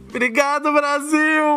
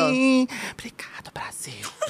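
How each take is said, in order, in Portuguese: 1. É falada com voz normal. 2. É falada em sussurro suave.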